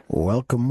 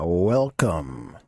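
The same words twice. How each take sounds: First: Said in the usual way. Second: Low drawn-out villain welcome; creepy welcome. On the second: Acted. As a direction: greet them like a horror host. Spooky greeting opening.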